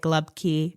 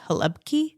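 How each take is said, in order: First: It is two syllables with an l and b. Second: It starts with an h sound. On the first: "Pittsburgh will say" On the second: "people from Croatia say ... like an H or something"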